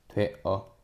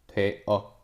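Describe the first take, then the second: The two takes are said the same way.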